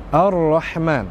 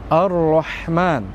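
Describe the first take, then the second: Both takes have the same delivery.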